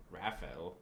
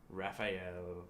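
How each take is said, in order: First: Raphael said as Raf-el, two beats; trying pronunciation. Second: Raphael said as Raf-eye-el; trying pronunciation. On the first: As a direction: clip Raphael to Raf-el with a rise. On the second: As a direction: stretch Raphael into three beats, Raf-eye-el. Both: Shown as a demonstration. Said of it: "trying out the name".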